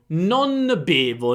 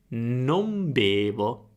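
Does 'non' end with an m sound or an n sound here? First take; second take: n sound; m sound. First: The word non ends with an n sound. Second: The word non ends with an m sound. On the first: The speaker calls it wrong. "Vedi che è difficile" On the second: The speaker calls it right. "se mettiamo la M anziché la N"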